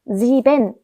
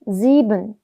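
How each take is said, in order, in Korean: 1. 끝소리는 또렷한 n으로 발음합니다. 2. 끝소리는 약한 음절성 n으로 흐리게 발음합니다. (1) "sieben이라고 안 하고" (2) "은 이렇게 끝을 흐리면서 발음하는 편입니다"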